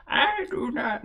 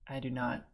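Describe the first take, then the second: First: Put-on high, thin old woman voice; old lady voice. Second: Said in the usual way. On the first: Shown as a demonstration. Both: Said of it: "should I do an old lady voice for this?".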